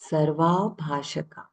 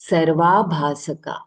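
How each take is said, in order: First: The consonant before the final 'aka' is 'sh'. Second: The consonant before the final 'aka' is 's'. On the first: The speaker calls it wrong. "not Shaka" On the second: The speaker calls it right.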